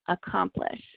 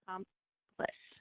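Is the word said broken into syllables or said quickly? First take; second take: quick; broken. First: It is said quickly as one smooth word. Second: It is said slowly, syllable by syllable. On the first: "Now read it fast" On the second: "let's read this word by parts"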